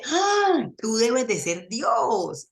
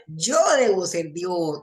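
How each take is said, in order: First: Slow, awestruck dog voice; adoring dog. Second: Slow, self-satisfied cat voice; a cat who thinks it is God, unhurried; smug cat. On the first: The dog thanks its feeder in slow, adoring awe. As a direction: gaze up at your master in slow wonder. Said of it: "el perro dice". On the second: The cat, given food, concludes it is God, slowly and smugly. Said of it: "el gato piensa". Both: Acted.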